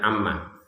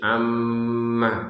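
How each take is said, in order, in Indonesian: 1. Bunyi sengau m hanya ditahan sebentar. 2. Bunyi sengau m ditahan lebih lama. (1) "jangan sekedar amma ... cuma satu harokat" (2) "tapi amma gitu ya ... dua harokat untuk dengungannya"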